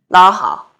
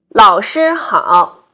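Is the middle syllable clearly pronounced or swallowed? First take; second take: swallowed; clear. First: The middle syllable is swallowed. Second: Every syllable is clearly pronounced.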